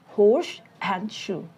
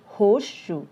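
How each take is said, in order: First: Horse and shoe slow, each word said apart; separate words. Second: Horseshoe with the s blending into sh, hoshu; linked horseshoe. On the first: Teacher sounding out horse and shoe separately. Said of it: "We pronounce these two words individually". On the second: Teacher modeling connected horseshoe. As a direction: merge into one word, hoshu. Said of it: "it changes and becomes like horseshoe". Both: Shown as a demonstration.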